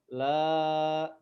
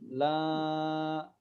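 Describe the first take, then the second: First: The long vowel is voiced through the mouth. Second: The long vowel is voiced through the nose. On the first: The speaker calls it right. "harusnya kita baca dengan makhraj al-jauf" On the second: The speaker calls it wrong. "itu masuk ke hidung berarti"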